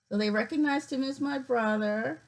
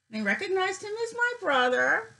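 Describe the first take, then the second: First: Said in the usual way. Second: Pitched high with thrilled disbelief; light, delighted announcement; excited. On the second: Real, not acted. Sister thrilled the site matched her brother, voice up high. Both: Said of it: "it's so exciting".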